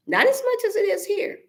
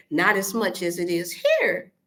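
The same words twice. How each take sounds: First: Much higher pitch, stressing as; pitched high, insisting; emphatic repeat. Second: Said in the usual way. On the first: Real, not acted. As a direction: lift it way up for emphasis.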